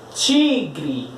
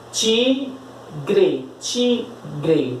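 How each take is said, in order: First: Said in the usual way. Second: TI... GRE, with a clear pause between the two syllables; sílaba por sílaba. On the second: Shown as a demonstration. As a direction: split "Tigre" slowly into TI and GRE. Separa a palavra em sílabas. ("Tigre" separado em sílabas, bem devagar)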